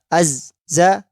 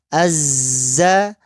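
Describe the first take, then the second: First: The z is cut off between the two syllables. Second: The z flows continuously into the next syllable. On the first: The speaker calls it wrong. "itu enggak mengalir" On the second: The speaker calls it right. "Harus mengalir"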